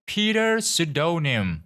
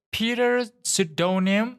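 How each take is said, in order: First: High, slow falling repeat of a name; nurse calling, final. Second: High, slow rising call of a name; nurse calling out. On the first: Nurse repeats the name before giving up, high slow falling call. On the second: Nurse calls the name into the waiting room, high slow rising call. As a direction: stretch the name out high, questioning. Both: A narrator's reading.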